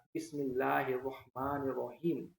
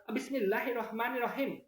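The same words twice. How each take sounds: First: Slow, drawn-out Arabic recitation of Bismillah; Arabic accent. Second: High-pitched Madurese take on Bismillah; Madurese accent. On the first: Host contrasts dialects of one text, slow Arabic accent. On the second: Host contrasts it with Arabic reading, high Madurese accent. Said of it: "Kalau logat Madura". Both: Shown as a demonstration.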